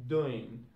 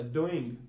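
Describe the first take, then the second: First: "doing" said as "doin'"; G dropped. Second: "doing" with the G at the end; G sounded. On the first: Teacher showing learners Cockney British, "doing" without G. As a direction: end "doing" on a plain N. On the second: Teacher giving the normal English form, "doing" with its G. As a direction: finish "doing" on ng. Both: Shown as a demonstration. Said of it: "We won't have to use any G".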